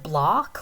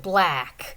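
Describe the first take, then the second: First: The vowel is an open back ah sound. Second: The vowel is fronted and sounds nasal. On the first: "Instead of saying block" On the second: "It's like a very kind of nasal vowel sound"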